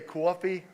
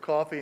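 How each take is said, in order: First: It is said with a Philadelphia accent. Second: It is said with a standard American accent. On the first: The speaker grew up saying it this way. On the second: This is how others usually say it.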